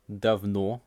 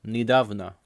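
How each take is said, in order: First: "давно" stressed on the final о, dav-NO; stress on last syllable. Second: "недавно" stressed on the а, ni-DAV-na; stress on middle syllable. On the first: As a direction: land on the end of "давно". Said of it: "the stress will change". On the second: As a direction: hit the middle of "недавно", weak ending. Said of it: "the stress changes completely". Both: Shown as a demonstration.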